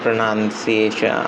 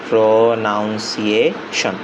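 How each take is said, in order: First: The word is said quickly in one go. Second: The word is said slowly, broken into parts. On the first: The speaker calls it wrong. "অনেকে বললে যেমন pronunciation আসতেছে না" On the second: The speaker calls it right. "একটু ভেঙে ভেঙে পড়ি আস্তে আস্তে বলি"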